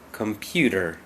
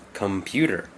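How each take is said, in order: First: The middle consonant is a soft d sound. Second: The middle consonant is a soft d sound.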